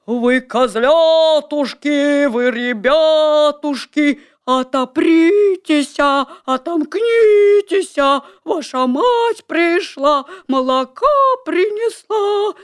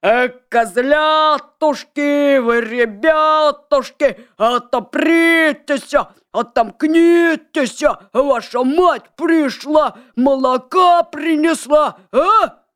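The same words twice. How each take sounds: First: Wolf's slow, high falsetto; thin put-on voice. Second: Gruff, slow and loud wolf; thick wolf voice. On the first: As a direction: fake a thin sweet mother voice. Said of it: "причитывать тоненьким голосом". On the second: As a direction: belt it out like a rough wolf. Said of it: "закричал своим толстым голосом". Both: A narrator's reading.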